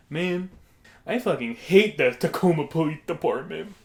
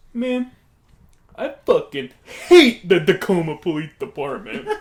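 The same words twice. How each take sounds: First: Put-on grumbling customer, raised a little; odd customer impression. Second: Loud, hammed-up complaint with HATE blasted; emphatic customer impression. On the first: Odd stranger complaining to a diner, mildly aggrieved impression. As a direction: imitate the man's first complaint, fairly contained. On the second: Odd stranger repeating his complaint to a diner, loud emphatic impression. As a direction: burst out louder, imitating the odd man. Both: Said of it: "It's how he sounded".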